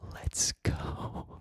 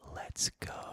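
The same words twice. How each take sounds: First: It is said with a wavering vibrato. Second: It is said in a steady, plain voice.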